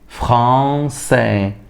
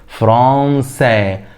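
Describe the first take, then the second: First: The middle consonant is an s sound. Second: The same.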